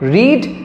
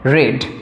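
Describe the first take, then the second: First: The vowel is long, like 'reed'. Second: The vowel is short, like 'red'. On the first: This is the base form of the verb. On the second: This is the third form of the verb.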